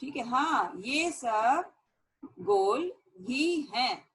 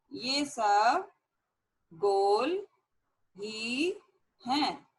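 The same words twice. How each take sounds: First: Said in the usual way. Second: ये सब गोल ही हैं with a pause after each word; slow word-by-word dictation. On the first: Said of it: "teacher gives answer, then dictates". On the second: Shown as a demonstration. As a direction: spell it out one word at a time for students to copy. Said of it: "teacher dictates word by word". (धीरे-धीरे, हर शब्द अलग बोलकर)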